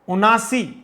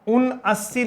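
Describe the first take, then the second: First: It is one word with a single long a. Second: It is two parts with a doubled s. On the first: The speaker calls it right. "उनासी बोलें" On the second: The speaker calls it wrong. "उन अस्सी नहीं बोलें"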